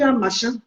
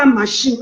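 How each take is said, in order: First: "un machin" with a nasal ending and no final "n"; correct pronunciation. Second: "un machine" with a final "n" sound, as in "machine"; wrong pronunciation. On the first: Teaching a rival on the panel, "un machin" said correctly. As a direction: say "un machin" the proper way. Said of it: "on dit un machin". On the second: Correcting a rival's French, "un machine" said the wrong way. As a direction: say "un machine" the wrong way she is mocking. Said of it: "On ne dit pas un machine". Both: Shown as a demonstration.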